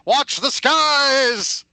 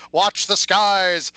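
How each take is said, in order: First: Slower, higher sci-fi trailer shout; dramatic voiceover. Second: Slow, booming movie trailer voice; ominous sci-fi announcer warning; dramatic voiceover. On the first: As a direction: announce the alien threat, drawn out. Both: Pretend. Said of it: "Wrong voiceover".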